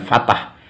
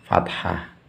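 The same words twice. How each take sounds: First: Fatah with a plain t, no breath after it; wrong fatah. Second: Fathah with a breathy th and a soft final h; correct fathah. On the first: Teacher showing pupils the wrong fatah, plain t. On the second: Teacher correcting pupils, fathah with a breathy th. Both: Shown as a demonstration. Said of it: "bukan fatah".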